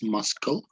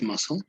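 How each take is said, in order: First: The c is pronounced as a k sound. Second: The c is silent, with no k sound. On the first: The speaker calls it wrong. "It's muscle, right?" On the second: The speaker calls it right. "there's no um, the C, ... But it's pronounced muscle"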